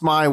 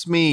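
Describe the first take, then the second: First: The vowel is an 'eye' sound. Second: The vowel is an 'ee' sound. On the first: The speaker calls it right. "It's Smy World" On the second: The speaker calls it wrong. "You guys all thought it was Smee"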